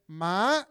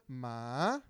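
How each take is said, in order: First: The syllable is said on a high pitch. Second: The syllable dips low and then rises. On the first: It means horse. "the second one was ma, that means horse" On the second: It means dog. "that third one means dog"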